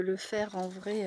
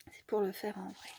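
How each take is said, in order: First: Said in the usual way. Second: Whispered aside; soft whispered repeat. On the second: Real, not acted. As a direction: breathe it like a confession to the viewers.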